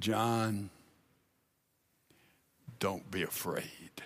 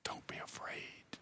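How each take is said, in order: First: Very soft, low and hushed; quietly calm a frightened friend; gentle reassurance. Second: Barely audible, tender whisper; whispered reassurance. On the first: Jesus reassures terrified John in vision. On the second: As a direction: whisper it to soothe a frightened friend. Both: Retold or imitated.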